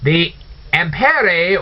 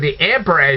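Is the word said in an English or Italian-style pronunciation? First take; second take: Italian; English. First: The word is said with an Italian-style pronunciation. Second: The word is said with an everyday English pronunciation. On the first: "I'm just using the Italian pronunciation" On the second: "as you know it today"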